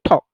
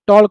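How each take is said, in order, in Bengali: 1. শব্দটি L উচ্চারণ ছাড়া বলা হয়। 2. শব্দটি L উচ্চারণ সহ বলা হয়। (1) "আমরা উচ্চারণটা করবো ঠক" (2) "টলক হবে না"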